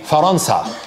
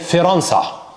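First: The first syllable has an 'a' vowel. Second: The first syllable has an 'i' vowel. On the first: "we don't say Faransa" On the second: "بكسر الفاء"

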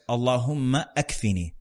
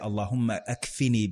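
First: The phrase is said at a slower pace. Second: The phrase is said at a quicker pace.

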